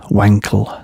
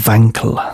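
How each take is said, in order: First: It begins with a W sound. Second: It begins with a V sound.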